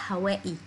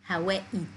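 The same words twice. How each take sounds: The two takes are said the same way.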